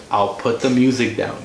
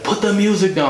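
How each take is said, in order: First: Said in the usual way. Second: Retold yell pitched way up; mock yelling. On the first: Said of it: "I was like". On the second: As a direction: imitate a man yelling, much higher than your own voice. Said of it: "He starts yelling and yelling".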